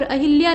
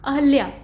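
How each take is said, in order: First: अहिल्या with "hi" in the middle; wrong form. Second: अहल्या with no i after h; correct form. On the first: Teacher showing the mistake, अहिल्या with hi. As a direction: say अहिल्या as "ahilya". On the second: Teacher correcting it, अहल्या with ha, not hi. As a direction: say अहल्या as "ahalya". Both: Shown as a demonstration. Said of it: "नहीं बल्कि".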